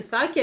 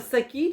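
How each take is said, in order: First: Сакі with stress on the last syllable, са-КІ; second of two stress tries: са-КІ; stress test, second take. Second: Сакі with stress on the first syllable, СА-кі; first of two stress tries: СА-кі; stress test, first take. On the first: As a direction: say Сакі as са-КІ, landing on the end. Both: Shown as a demonstration. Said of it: "як правильно наголос".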